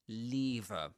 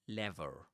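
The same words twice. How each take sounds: First: It is said in a British accent. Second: It is said in an American accent. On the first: "That's in British English" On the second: "In American English, that's lever"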